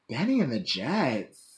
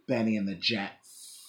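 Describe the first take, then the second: First: The final S sound is short. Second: The final S sound is drawn out.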